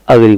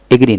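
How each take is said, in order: First: "अग्री" said uh-gree; short uh opening on "अग्री"; initial short "uh". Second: "एग्री" said wrongly as ay-gree; full ay opening on "एग्री"; initial "ay". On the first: Teacher correcting the mistake, uh-gree pronunciation. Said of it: "अग्री बोलेंगे". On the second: Teacher showing what not to say, ay-gree pronunciation. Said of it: "एग्री नहीं बोलेंगे". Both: Shown as a demonstration.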